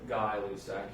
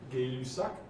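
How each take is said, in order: First: The first syllable rhymes with 'eye'. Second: The first syllable rhymes with 'day'. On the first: This is how it was said in a chemistry class. "I heard this pronounced when I was in chemistry as" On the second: This is the real French pronunciation. "The real French pronunciation would be"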